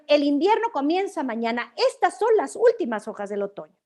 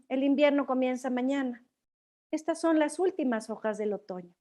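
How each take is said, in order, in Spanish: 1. Se dice con un tono firme y seguro. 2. Se dice con un tono triste y apenado. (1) "Si lo voy a decir con afirmación" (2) "Con tristeza"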